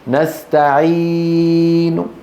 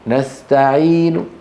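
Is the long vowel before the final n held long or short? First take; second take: long; short. First: The long vowel is drawn out for many counts. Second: The long vowel is held for only two counts. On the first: The speaker calls it wrong. "ما يصح أن أقول نستعين، لا يصح" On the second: The speaker calls it right. "إذا أردت أن تقف الروم تأتي بحركتين بس"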